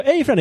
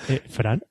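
First: High loud "Hey, Fran" greeting; wrong version. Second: Said in the usual way. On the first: Shown as a demonstration. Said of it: "No he dicho, "Hey, Fran", he dicho, "Eh, Fran". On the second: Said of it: "he dicho, "Eh, Fran".

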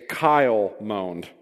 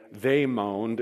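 First: Kyle said slow and a bit louder; stress on Kyle. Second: Said in the usual way. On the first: Shown as a demonstration. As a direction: lean on the name Kyle, drawn out. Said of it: "it would not say, "They moaned." It would say". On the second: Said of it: "It would say, "Kyle moaned".

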